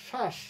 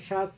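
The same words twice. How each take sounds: First: শ্বাস as shash, sh at both ends; correct palatal sh. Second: শ্বাস as shas, ending in s; wrong dental s. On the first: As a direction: close শ্বাস on a clear sh. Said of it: "উচ্চারণ করছি আমরা". (শ্বাস, দুদিকেই তালব্য শ) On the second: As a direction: show the mistake with a final s in শ্বাস. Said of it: "তা তো না". (শ্বাস, শেষে ভুল দন্ত স) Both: Shown as a demonstration.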